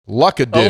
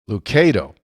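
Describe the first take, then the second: First: The stress falls on the last syllable. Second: The stress falls on the second syllable. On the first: This is how locals say the street name. "the locals pronounce it Luckadoo" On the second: This is how the author says his name. "emphasis on the K"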